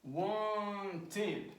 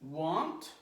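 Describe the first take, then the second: First: "Wanted," as a drawn-out, higher WAN, then TED; two syllables. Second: "want," in a single beat ending on T; one syllable. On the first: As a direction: stretch and separate both syllables of "Wanted,". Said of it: "two syllables". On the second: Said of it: "one syllable". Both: Shown as a demonstration.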